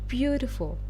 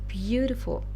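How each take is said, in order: The two takes are said the same way.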